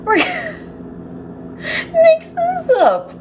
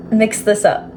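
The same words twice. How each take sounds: First: High-pitched squeal of helpless laughter; laughing uncontrollably. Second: Said in the usual way. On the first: Real, not acted. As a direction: squeeze the words out through a real laughing fit. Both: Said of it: "I don't know why I'm laughing".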